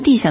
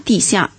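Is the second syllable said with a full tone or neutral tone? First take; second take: neutral tone; full tone. First: The second syllable is light and toneless. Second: The second syllable keeps its full falling tone. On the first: On the ground or floor. "读轻声地下" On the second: Underground, beneath the earth. "就是在地的底下"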